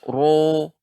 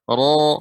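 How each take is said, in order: First: Thick r with a rounded, o-like vowel. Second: Thick r with an open, unrounded vowel. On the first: The speaker calls it wrong. "tidak ro ya tidak seperti itu" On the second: The speaker calls it right. "ra yang ditebalkan"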